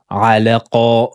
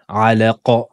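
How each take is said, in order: Both takes have the same delivery.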